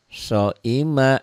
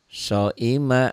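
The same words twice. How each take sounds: No difference in how they are said.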